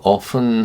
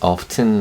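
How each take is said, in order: First: The word is said without a t sound. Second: The word is said with a t sound. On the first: "T 발음을 빼고 often 하기도 하고요" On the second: "T 발음을 발음을 내서"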